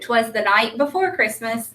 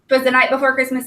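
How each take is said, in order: First: It is read at a moderate, even pace. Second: It is read quickly and rushed. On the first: The speaker calls it right. "I need to read it fluently too" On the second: The speaker calls it wrong. "they should not sound like this"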